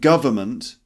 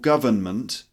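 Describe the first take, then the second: First: Three syllables, with no n sound in the middle. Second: Three syllables, with a light n in the middle. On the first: "That's how I usually pronounce it" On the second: "with a little N"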